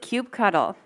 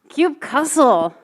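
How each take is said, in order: First: The ending is said as the word cuddle. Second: The ending is said as the word cussle. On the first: "who pronounces it cube cuddle?" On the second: "because sometimes you just have to cuss at your computers"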